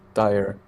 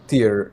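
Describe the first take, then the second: First: The name rhymes with 'fire'. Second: The name rhymes with 'ear'. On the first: The speaker calls it wrong. "not tire" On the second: The speaker calls it right. "I am ninety-nine percent sure it is pronounced tier"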